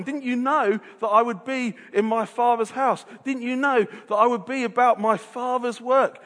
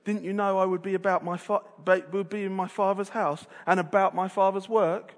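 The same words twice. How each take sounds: First: Bright, joyful and eager; Jesus full of delight; delighted reading. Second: Self-satisfied, superior tone; mildly smug Jesus; smug reading. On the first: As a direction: sound thrilled to be there. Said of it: "This is Jesus delighting". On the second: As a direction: lecture them smugly. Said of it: "smug, self-centered Jesus". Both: Shown as a demonstration.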